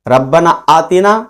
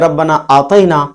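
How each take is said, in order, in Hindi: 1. 'aatina' का बीच का स्वर 'ee' जैसा लगता है। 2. 'aatina' का बीच का स्वर 'ay' जैसा लगता है। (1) "इसका माना बनेगा, मफहूम बनेगा कि मौला हमें दुनिया की और आखिरत की भलाई दे" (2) "तो इसका माना हो जाएगा कि ए हमारे रब हमने तुझे दिया"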